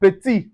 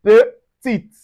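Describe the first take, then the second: First: Petit with the T silent; masculine petit. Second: Petite higher and louder, T sounded; feminine petite. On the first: Teacher modelling masculine petit. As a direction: end petit on the vowel. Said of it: "we have petit". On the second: Teacher modelling feminine petite, T sounded. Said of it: "we say petite". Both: Shown as a demonstration.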